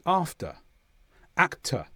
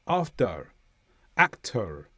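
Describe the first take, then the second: First: "after", "actor" in southern British, ending on a bare uh; southern British r-less. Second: "After", "actor" with an American hint of r at the end; American-style final r. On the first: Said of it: "the r at the end of a word after a vowel is usually not pronounced". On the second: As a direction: curl into a light American r ending "After", "actor". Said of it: "there will be a hint of a r". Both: Shown as a demonstration.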